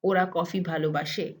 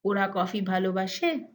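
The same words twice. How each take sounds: First: The tune makes it sound like a statement. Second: The tune makes it sound like a question. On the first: The speaker asserts that they love coffee. "In the statement form" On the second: The speaker asks whether they love coffee. "In the question form"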